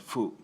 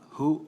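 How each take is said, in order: First: The syllable begins with an f sound. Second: The syllable begins with an h sound. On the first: "actually, mainly fu" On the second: "can be pronounced as, as uh, hu or fu"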